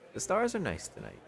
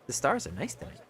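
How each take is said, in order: First: It is said in a put-on character voice. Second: It is said in the plain narrator voice.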